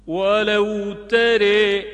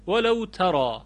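First: ترى sung slowly as tere, louder and higher; slow chanted ترى with imala; delicate imala. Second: Said in the usual way. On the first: Shown as a demonstration. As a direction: stretch ترى with a fine e-like vowel. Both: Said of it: "خیلی باید ظریف و زیبا تلفظ کرد".

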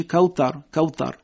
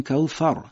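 First: کوثر with a hard t. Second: کوثر with a blown th; breathy th. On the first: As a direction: demonstrate the wrong t sound. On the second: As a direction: blow air at the th in کوثر. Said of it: "به این حالت". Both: Shown as a demonstration.

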